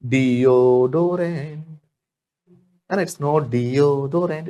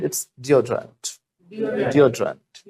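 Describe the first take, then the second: First: Deodorant drawn out in long Hindi vowels, very slow; slow wrong version. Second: Deodorant said short as dee-O-drant, slowly; slow correct version. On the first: Teacher slowly showing the long Hindi-style deodorant. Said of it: "हम हिंदी की तरह लंबी लंबी बोलते हैं". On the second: Teacher slowly modelling short English deodorant. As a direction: clip the vowels in deodorant, slow. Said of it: "लंबी लंबी नहीं होती English". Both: Shown as a demonstration.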